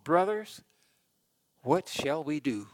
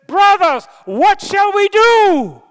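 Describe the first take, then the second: First: The question is asked calmly and evenly. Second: The question is cried out in anguish. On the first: The speaker calls it wrong. "I said that kind of calmly" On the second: The speaker calls it right. "I think they were in agony"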